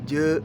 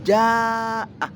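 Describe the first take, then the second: First: The first vowel sounds like 'e'. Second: The first vowel is an open 'a'. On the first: The speaker calls it wrong. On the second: The speaker calls it right.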